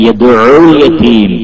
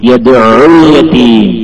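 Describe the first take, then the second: Both takes have the same delivery.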